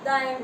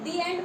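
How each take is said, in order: First: 'The' is said with a short 'uh' vowel. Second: 'The' is said with a long 'ee' vowel. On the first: The speaker calls it wrong. "या द end बोलते हैं" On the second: The speaker calls it right. "दी एंड बोलते हैं"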